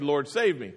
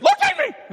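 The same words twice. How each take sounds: First: It is said calmly, without urgency. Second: It is said frantically, with urgency.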